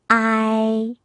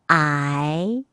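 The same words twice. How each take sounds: First: The pitch stays high and level. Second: The pitch rises from middle to high.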